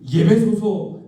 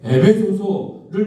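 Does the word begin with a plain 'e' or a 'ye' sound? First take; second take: ye; e. First: The word begins with a 'ye' sound. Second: The word begins with a plain 'e' sound. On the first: The speaker calls it wrong. "못하시는 예배소서" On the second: The speaker calls it right. "에베소서를 못하시는"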